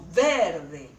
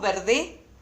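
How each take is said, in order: First: The stress is on the first syllable. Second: The stress is on the last syllable. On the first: The speaker calls it right. "Decimos verde. Esta es la sílaba tónica" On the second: The speaker calls it wrong. "¿Decimos verde? No. Entonces esta no es la sílaba tónica"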